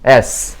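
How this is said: The letter is said the English way. The speaker calls it right. "영어"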